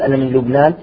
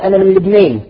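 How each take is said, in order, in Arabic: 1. الألف الطويلة ألف مفتوحة خالصة. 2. الألف الطويلة مُمالة نحو الياء. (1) "ما يقول أنا من لبنان" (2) "يقول أنا من لبنان، إذا يميل"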